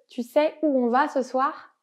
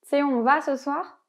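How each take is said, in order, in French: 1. Le mot 'tu' se prononce en entier. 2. La voyelle de 'tu' tombe, ce qui donne 't'sais'. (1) "au lieu de tu sais" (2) "C'est plus rapide de le prononcer comme ça"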